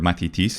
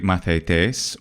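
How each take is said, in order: First: It is said in the modern Greek pronunciation. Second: It is said in the ancient Greek pronunciation.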